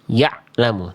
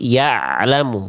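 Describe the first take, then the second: First: The ain is abruptly cut off and held. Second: The ain flows smoothly into the next sound. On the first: The speaker calls it wrong. "Itu betul-betul terpu, terputus dan terta, tertahan" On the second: The speaker calls it right. "Bunyi ain sukunnya diantar sampai melafalkan lam"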